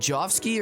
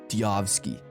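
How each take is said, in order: First: The name begins with a J sound. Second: The name begins with a Y sound. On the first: "Is the J like a J" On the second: "or is it like a Y?"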